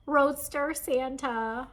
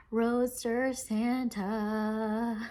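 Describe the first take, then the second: First: High, loud, slow reveal; excited, high-pitched. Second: Savouring delight. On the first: Vlogger revealing a longed-for kit, excited high voice. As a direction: announce it high and loud, savouring it. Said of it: "My voice is getting really high pitched". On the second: Vlogger repeating her prized kit's name, savouring slowly. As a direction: stretch the name right out. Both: Real, not acted.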